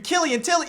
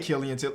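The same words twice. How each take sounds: First: The name is said in a put-on voice. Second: The name is said in a normal voice. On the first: The speaker calls it right. "you gotta say it like that" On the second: The speaker calls it wrong. "You can't just say Killian Tilly"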